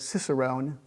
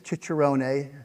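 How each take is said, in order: First: The word is pronounced the American way. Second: The word is pronounced the Italian way. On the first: "in Philadelphia they might have said Cicerone" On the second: "That's the Italian pronunciation"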